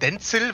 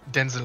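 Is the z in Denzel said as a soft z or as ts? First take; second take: ts; soft z. First: The z is a sharp ts sound. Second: The z is a soft, buzzing z sound. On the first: This is how Germans usually say the name. The speaker calls it wrong. "die Allmann sagen Denzel, weil das ist ja ein Z" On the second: This is how the name is really pronounced. The speaker calls it right. "Also Denzel eigentlich"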